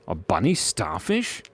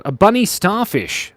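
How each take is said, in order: First: "A bunny starfish?" asked softer with a rising, puzzled tune; puzzled question. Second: Said in the usual way. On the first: Real, not acted. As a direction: repeat it as if doubting the idea.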